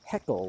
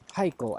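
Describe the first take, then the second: First: The name sounds just like 'heckle'. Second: The name does not sound like 'heckle'. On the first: "like heckling" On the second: "I've heard it said"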